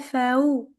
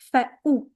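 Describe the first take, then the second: First: The glottal stop is weak or missing. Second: The glottal stop is strong and clear. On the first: The speaker calls it wrong. "Do not say فأو" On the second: The speaker calls it right. "We have to hear the hamza strong and clear"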